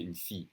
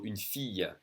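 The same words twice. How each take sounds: First: "fille" said as "fee", no y glide; "une fille" with the L L ignored; just an I. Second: "fille" ending in a sounded y glide, "fee-yuh"; slow "une fille" with the L L said as y; Spanish-like Y sound. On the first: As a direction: cut "fille" short after the I sound. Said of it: "just an I, and kinda ignore the L L". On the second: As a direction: draw out "fille" with a y after the I. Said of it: "I L L is the same as in Spanish, the y". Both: Shown as a demonstration.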